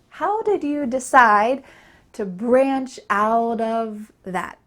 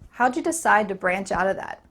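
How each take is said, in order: First: Every word is said clearly and fully. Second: It is faster, with words reduced and linked. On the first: "In the original version, I said to with a clear ooh sound" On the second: "This is much faster. There's a lot of linking happening"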